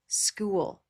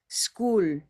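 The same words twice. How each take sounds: First: The vowel glides with a clear movement. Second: The vowel stays steady without any movement. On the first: The speaker calls it right. "with movement. And it is more English sounding" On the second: The speaker calls it wrong. "no movement"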